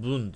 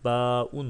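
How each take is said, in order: First: "bun" as one syllable, b joined straight to un; blended reading. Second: "Ba'un" broken into two syllables, long ba then un; wrong split reading. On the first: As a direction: say "bun" with no vowel between b and un. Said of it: "Böylece bun diye okunuyor". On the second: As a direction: say "Ba'un" loudly as two separate pieces. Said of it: "Hayır". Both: Shown as a demonstration.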